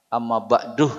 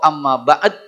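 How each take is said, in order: First: The last word ends with an added h sound. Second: The last word ends on a bare d sound. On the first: The speaker calls it wrong. "Tidak pakai hak. Amma ba'duh salah" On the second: The speaker calls it right. "atau amma ba'd"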